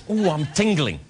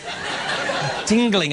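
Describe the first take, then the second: First: Said in the usual way. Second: Very slow, savoured tingling; drawn-out tingle. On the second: Shown as a demonstration. Host savouring the moment for the audience, very slow. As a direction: stretch tingling out with relish.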